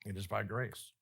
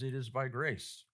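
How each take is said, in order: First: Softer repeat. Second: Said in the usual way. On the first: Shown as a demonstration. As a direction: lower and softer, "by grace" with the vowel of "grace" held.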